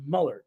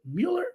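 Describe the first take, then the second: First: Muller as MULL-er, no y glide; alternative pronunciation. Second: Mueller as MYOO-ler, with a y glide; candidate pronunciation. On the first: Host asking which is right, Muller as MULL-er. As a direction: offer "Muller" with a short vowel. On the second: Host asking which is right, Mueller as MYOO-ler. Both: Shown as a demonstration. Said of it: "Is it, is it".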